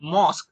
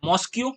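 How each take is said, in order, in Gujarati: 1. શબ્દનો અંત સાદા 'k' અવાજથી થાય છે. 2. શબ્દનો અંત 'kyoo' અવાજથી થાય છે. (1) "ક જ વાંચવાનો છે" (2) "ઘણા વિદ્યાર્થીઓ આને મોસ્ક્યુ વાંચે"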